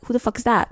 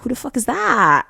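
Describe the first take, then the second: First: Higher-pitched, mildly aggressive mock onlooker. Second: High-pitched, acted awe at a stranger; impressed amazement. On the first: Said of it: "suddenly got so aggressive". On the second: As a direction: play a bystander stunned with admiration. Acting out impressed onlookers.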